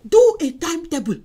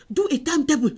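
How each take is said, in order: First: "Do a timetable" said again, louder with DO hit hard; louder insistent second "Do a timetable"; emphatic repeat. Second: Said in the usual way. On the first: Shown as a demonstration. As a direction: press the point home on DO.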